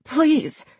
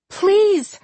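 First: High, strained little plea; hoarse begging. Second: High-pitched pleading cry; desperate cry. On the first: Charlie held by the neck, begging hoarsely. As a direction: beg weakly through a choked throat. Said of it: "she begged hoarsely". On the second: Charlie pleading for John's life, crying out desperately. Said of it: "Charlie cried". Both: A narrator's reading.

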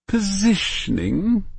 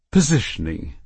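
First: Positioning said slowly and high, as a correction; correcting. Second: Said in the usual way. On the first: Acted. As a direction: draw out Positioning to set her right. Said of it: "corrected Irene". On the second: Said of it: "Of course".

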